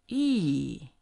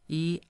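First: The pitch drops sharply from high to low. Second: The pitch stays high and level. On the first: "the fourth one, falling" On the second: "high flat one"

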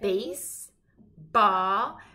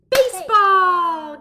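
First: The two parts are said with a break. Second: The two parts are said with no break. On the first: The word is split into its two parts. "So we've got base ball" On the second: The parts are put together as one word. "What is it together?"

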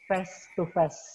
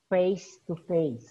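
First: The vowel in face lacks the full 'ay' sound. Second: The vowel in face is a full 'ay' sound. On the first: The speaker calls it wrong. "you said face to face" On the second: The speaker calls it right. "It is supposed to be face to face"

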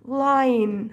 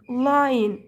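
First: The vowel before the final n is reduced. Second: The vowel before the final n is reduced.

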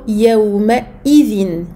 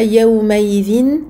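First: The glottal stop before izin is clearly pronounced. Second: The glottal stop before izin is dropped. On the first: The speaker calls it right. "bien prononcer la hamza et ne pas la négliger" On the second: The speaker calls it wrong. "On ne dit pas"

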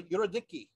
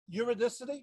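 First: The 'c' is said with a k sound. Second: The 'c' is said with an s sound. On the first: This follows the original Greek spelling. "the C is a kappa" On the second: This is the familiar English way of saying the name. "so you've heard it said"

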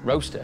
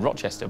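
First: The name is said as two-syllable 'Roaster'. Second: The name is said as three-syllable 'Rochester'. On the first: The speaker calls it right. "you say roaster" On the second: The speaker calls it wrong. "I said Rochester, but it's not Rochester"

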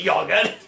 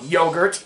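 First: The word has a non-American pronunciation. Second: The word has an American pronunciation.

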